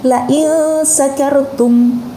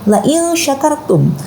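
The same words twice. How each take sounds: First: The verb begins with an 's' sound. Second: The verb begins with a 'sh' sound. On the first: If you are drunk. The speaker calls it wrong. "shinnya itu dibaca dengan sin" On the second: If you are grateful. The speaker calls it right. "itu menggunakan shin"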